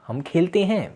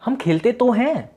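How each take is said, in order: First: Said in the usual way. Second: "हम खेलते तो हैं" said much higher, with weight on "तो"; emphatic stress. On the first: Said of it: "हम किसी सेंटेंस पर जोर देते हैं". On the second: Shown as a demonstration. Teacher demonstrating an emphatic sentence to students, high and pressed. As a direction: lean into "तो" as if insisting. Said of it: "तो sentence पे जोर".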